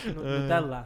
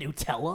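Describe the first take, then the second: First: It is said with an authentic Italian pronunciation. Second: It is said with an Americanized English pronunciation. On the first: "when I pronounce it like authentic" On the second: "And they're like, "Do you mean Nutella?"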